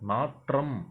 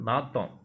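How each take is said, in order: First: It is said in the formal pronunciation. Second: It is said in the colloquial pronunciation. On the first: The speaker calls it right. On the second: The speaker calls it wrong.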